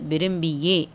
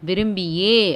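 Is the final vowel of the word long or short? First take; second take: short; long. First: The final vowel is kept short. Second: The final vowel is drawn out long. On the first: The speaker calls it right. "குரில்" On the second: The speaker calls it wrong. "நெடில்ல படிக்கக்கூடாது"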